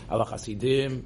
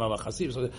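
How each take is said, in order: First: The stress falls on the last syllable. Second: The stress falls before the last syllable. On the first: The speaker calls it right. "You're supposed to put the emphasis on the last syllable" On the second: The speaker calls it wrong. "You're not supposed to say"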